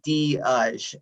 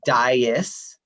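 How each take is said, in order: First: The name is said in a Portuguese way. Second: The name is said in a generic American way.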